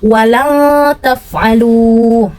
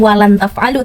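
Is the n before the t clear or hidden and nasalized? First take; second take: nasalized; clear. First: The n sound is hidden with a nasal hum. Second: The n sound is pronounced clearly and distinctly. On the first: The speaker calls it right. "tapi walang taf'alu. Jadi nun matinya itu tidak jelas" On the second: The speaker calls it wrong. "bukan walan taf'alu"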